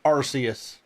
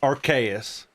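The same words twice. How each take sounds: First: The first syllable sounds like 'arse', with an s. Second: The first syllable sounds like 'ark', with a k. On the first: The speaker calls it wrong. "it's not Arceus" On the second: The speaker calls it right. "It's Arceus. You have an Arc phone"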